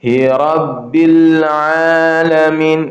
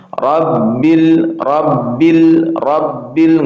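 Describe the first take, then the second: First: "Rabbil" with a short "b", in and out at once; correct "Rabbil". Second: "Rabbil" with the "b" held too long; drawn-out qalqalah. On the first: Teacher showing the correct short reading. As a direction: let the "b" of "Rabbil" enter and release quickly. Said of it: "jadi bacanya". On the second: Teacher showing the wrong, overlong reading. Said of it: "nggak boleh lama-lama". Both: Shown as a demonstration.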